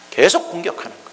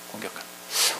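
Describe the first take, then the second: First: Said in the usual way. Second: Whispered echo. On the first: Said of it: "repeated softly". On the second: Shown as a demonstration. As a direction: repeat it in a bare whisper. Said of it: "echo repeat". (속삭이는 반복)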